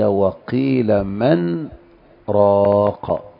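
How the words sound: A brief breathless pause comes after 'man'. This is the reading with a medium-length separated elongation. "هذا لحفص حينما تقرأ له بتوسط المنفصل"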